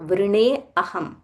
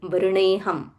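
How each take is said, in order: First: The two words are said separately, not joined. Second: The two words are run together as one. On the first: The words are split apart for analysis. "where we are breaking up the words" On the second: This is how it is said in recitation. "when we are chanting, we will say vrineham"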